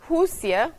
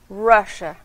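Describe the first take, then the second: First: It begins with a sound unlike English R. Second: It begins with an English R sound.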